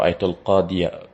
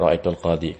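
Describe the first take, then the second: First: The word ends with a full 'ya' syllable. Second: The word ends without the 'ya' syllable. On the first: The speaker calls it right. "Jadi tetap dibaca ra'aitul qadiya" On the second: The speaker calls it wrong. "tidak ra'aitul qadi"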